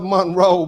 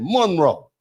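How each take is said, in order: First: The stress is on the second syllable. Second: The stress is on the first syllable.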